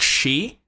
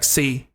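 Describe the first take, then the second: First: The word begins with a sh sound. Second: The word begins with an s sound. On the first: The speaker calls it right. "a very harsh sh sound" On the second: The speaker calls it wrong. "That's not correct"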